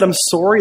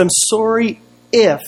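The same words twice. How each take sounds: First: Said in the usual way. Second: IF stretched out high after "I'm sorry"; slow apology hanging on a raised IF; stress on IF. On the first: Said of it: "that would have been perfect". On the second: Retold or imitated. Pastor retelling a conditional apology, IF drawn out high. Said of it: "heard an apology like that".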